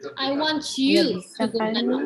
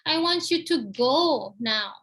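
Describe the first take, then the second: First: The word "you" is stressed. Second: The word "go" is stressed. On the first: This person, not others, should go now. "maksudnya I want you, not others" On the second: The person should leave, not stay sitting. "Pergi sekarang, jangan duduk aja"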